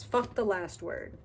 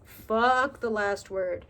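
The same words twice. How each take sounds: First: Said in the usual way. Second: Fuck the last word. slow and louder, each word hit; slow, louder emphatic repeat. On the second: Shown as a demonstration. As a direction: drive the point home slowly.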